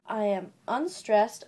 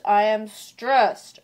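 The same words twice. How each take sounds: First: "I am unstressed" kept the milder beat, drawn out; unstressed demo. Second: "I am stressed" slow and much louder, STRESSED blasted out; heavily stressed demo. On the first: Vlogger showing an iamb's weak half, unstressed demo. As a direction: say "I am unstressed" slowly, held back before the big beat. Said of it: "one unstressed syllable per iamb". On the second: Vlogger showing an iamb's strong half, heavily stressed. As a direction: belt out "I am stressed" with a drawn-out STRESSED. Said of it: "there's one stressed". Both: Shown as a demonstration.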